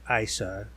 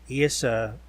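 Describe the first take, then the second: First: The name sounds like the start of 'Isis'. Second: The name does not sound like 'Isis'.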